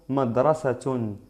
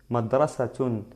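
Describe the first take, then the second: Both takes have the same delivery.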